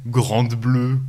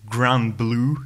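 First: The title is said with a French accent. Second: The title is said with an American accent.

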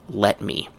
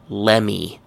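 First: Both words are said fully and clearly. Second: The two words blur into one reduced syllable. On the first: "Full pronunciation is let me" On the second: "Another one is lemme"

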